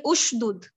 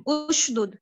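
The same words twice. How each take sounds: First: उशदुद begun with a short "u"; उशदुद said as "ush-dud"; damma start. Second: उशदुद again, opened with a short "u"; उशदुद said as "ush-dud" once more; repeated damma start. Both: Shown as a demonstration. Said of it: "आप इसको पढ़ेंगे".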